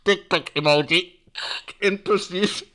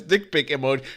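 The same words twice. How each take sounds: First: Loud, mock cop on the radio; police radio call. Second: Said in the usual way. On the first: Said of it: "the police had to go".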